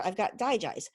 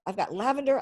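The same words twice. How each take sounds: First: Digize leaned on with a falling end; stress on Digize. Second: Lavender lifted and louder; stress on lavender. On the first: Showing her oils, stressing Digize. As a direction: punch Digize as the contrast. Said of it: "Digize is not". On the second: Showing her oils, stressing lavender. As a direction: hit lavender to set it apart. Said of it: "Lavender is a plant". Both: Shown as a demonstration.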